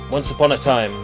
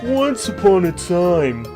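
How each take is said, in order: First: It is read in the speaker's ordinary voice. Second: It is read in a put-on cartoon cat voice.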